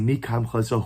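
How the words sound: It is asked like a question, rising.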